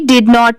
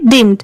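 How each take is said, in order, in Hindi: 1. यह दो पूरे शब्दों के रूप में बोला जाता है। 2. यह एक संक्षिप्त शब्द के रूप में बोला जाता है। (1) "इसे डिड नॉट भी आप पढ़ सकते हैं" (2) "अगर ऐसे लिखा है तो आप इसे क्या प्रोनाउंस करेंगे"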